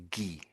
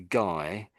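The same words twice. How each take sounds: First: The name is said with French pronunciation. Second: The name is said with English pronunciation. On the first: "in French uh, we say Guy" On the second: "in English we say guy"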